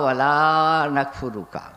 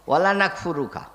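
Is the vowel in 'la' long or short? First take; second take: long; short. First: The vowel in 'la' is drawn out long. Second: The vowel in 'la' is kept short. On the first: We do not deny you. The speaker calls it right. "এ লা টান দিয়ে পড়তে হবে" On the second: We certainly deny you. The speaker calls it wrong. "বিনা টান দিয়ে যদি লা বলেন"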